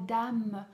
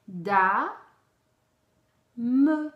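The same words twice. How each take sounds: First: Said in the usual way. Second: Dame split into loud, separate Da and me; Da, then a pause, then me, each syllable loud. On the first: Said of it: "ça fait da, da, donc il colle". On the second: Shown as a demonstration. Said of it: "voyez, la syllabe".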